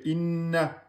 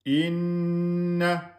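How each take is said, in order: First: The double n is released quickly without holding. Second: The double n is held for two beats. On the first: The speaker calls it wrong. "on ne peut pas bloquer, lâcher inna" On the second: The speaker calls it right. "vous mettez deux temps"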